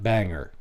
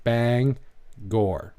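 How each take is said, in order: First: Bangor said as "BANG-er", no G sound, r-less ending; mock the wrong "Bangor" as BANG-uh. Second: Bangor said "BANG-gor", hard G and full R ending; correct Bangor. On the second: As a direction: give the proper local "Bangor", BANG-gor. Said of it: "It's not Bangor". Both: Shown as a demonstration.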